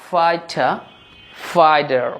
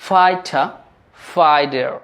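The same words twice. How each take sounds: Both takes have the same delivery.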